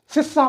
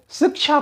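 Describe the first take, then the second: First: शिक्षा said wrongly as "sissa", with no k sound; mispronounced शिक्षा. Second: Said in the usual way. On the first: Shown as a demonstration. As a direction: flatten the cluster in शिक्षा to a double s. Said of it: "ये सही उच्चारण नहीं है". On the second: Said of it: "सही उच्चारण".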